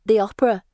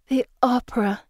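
First: "The opera" tossed off brightly and a little louder; eager, pleased "The opera"; proud and excited. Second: "The opera" said longingly with a falling sigh; wistful sigh. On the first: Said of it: "Anne says, twirling". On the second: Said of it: "Pippa says with a sigh". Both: A narrator's reading.

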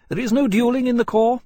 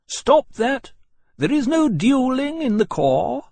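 First: High, loud, emphatic ruling; firm pronouncement. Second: Very high, loud, slow command; shouted order. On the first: Captain repeating the rule to Lawrence, firm. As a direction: state it as law, pitched up. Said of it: "Portland said flatly". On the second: Senior officer forbidding a duel, shouted order. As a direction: call a halt with loud authority. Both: A narrator's reading.

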